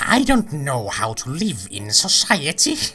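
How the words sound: It is said in an imitation Joker voice.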